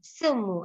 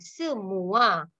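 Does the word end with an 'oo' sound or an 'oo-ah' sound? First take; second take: oo; oo-ah. First: The word ends on a plain 'oo' sound. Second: The word ends with an 'oo-ah' diphthong. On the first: The speaker calls it wrong. "They always say semu" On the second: The speaker calls it right. "this is not semu, semua"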